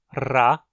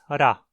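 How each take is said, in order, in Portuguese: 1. O R é uma vibração forte e rolada. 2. O R é uma batida rápida da língua. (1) "Essa pronúncia bem vibrante" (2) "a forma mais simples"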